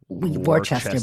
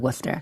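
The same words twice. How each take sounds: First: Every written syllable of the word is pronounced. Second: The word is shortened, dropping written syllables. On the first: This is how the spelling reads. "which is of course spelled w- Worcester" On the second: This is how locals say it. "but we say Worcester in New England"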